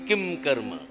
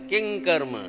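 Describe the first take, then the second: First: The nasal before karma sounds like m. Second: The nasal before karma sounds like ng. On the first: The speaker calls it wrong. "आपण काय म्हणतो किम कर्म" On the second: The speaker calls it right. "आता तुम्ही उच्चार ऐकला असेल किंग कर्म"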